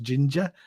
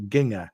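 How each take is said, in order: First: Ginger is said with its standard pronunciation. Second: Ginger is said with an altered pronunciation. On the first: The speaker calls it right. "like mispronounced ginger to ginger" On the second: The speaker calls it wrong.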